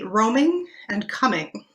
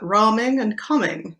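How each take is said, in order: First: Said in modern English; the vowels do not rhyme. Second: Said in an older accent; the vowels rhyme. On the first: "close, but not exactly a rhyme in modern English" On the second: "with a few tweaks in O P, ... which rhyme very nicely"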